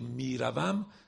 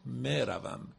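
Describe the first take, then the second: First: The first vowel is a long 'ee' sound. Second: The first vowel is a long 'ay' sound. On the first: This is the Iranian form of the word. "ما همه یه هامون یه معلومن، میگیم میروم" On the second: This is the Afghan or Tajik form of the word. "این مروم اون ا کشیده یا مجهوله"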